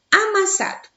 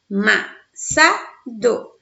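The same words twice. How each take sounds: First: "Amassado" in one piece, pitched high; whole word, tonic stressed. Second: Slow "Amassado", a-ma-sa-do with gaps; syllable by syllable. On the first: Teacher presents the next example, "Amassado" whole and high. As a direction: call out "Amassado" unbroken, high, falling after "sa". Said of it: "Sa é a sílaba de maior intensidade". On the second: Teacher separates the example, "Amassado" slowly syllable by syllable. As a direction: break "Amassado" into four separate syllables at normal pitch. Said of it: "Olha só a separação". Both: Shown as a demonstration.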